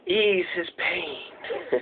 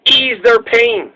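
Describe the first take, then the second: First: Very soft, slow whisper; drawn-out, hushed and low; hushed movie-quote whisper. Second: Said in the usual way. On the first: Acted. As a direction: whisper it like a mysterious voice from beyond. Echoes a film's whispered line.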